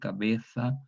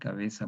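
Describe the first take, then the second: First: The z is said as a th sound. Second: The z is said as an s sound. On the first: This is how people in Spain say it today. "la fricativa interdental sorda, pronunciado como los españoles" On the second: This is how speakers with seseo say it. "Para nosotros una S, cabeza por el ceseo"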